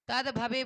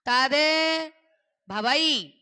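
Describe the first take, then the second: First: The last word ends in an 'e' vowel. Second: The last word ends in an 'ai' vowel. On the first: The speaker calls it wrong. "तद भवे बोलते हो।" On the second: The speaker calls it right. "आई की मात्रा है कि नहीं?"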